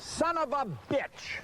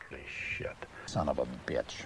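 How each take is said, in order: First: Higher and drawn out, yelled in fury; real rage at the forgotten line; furious curse. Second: Voiceless, much lower muttered curse; whispered self-directed swearing. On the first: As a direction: spit it out in anger. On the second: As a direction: breathe it out under your breath. Cursing under his breath. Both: Real, not acted.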